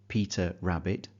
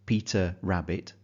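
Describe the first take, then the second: Both takes have the same delivery.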